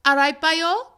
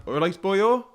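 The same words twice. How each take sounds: First: Put-on lilting Welsh "All right, boyo" with a rise on boyo; Welsh accent. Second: Welsh accent. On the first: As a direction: say "All right, boyo" in a strong valleys lilt. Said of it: "that's very Welsh". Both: Shown as a demonstration.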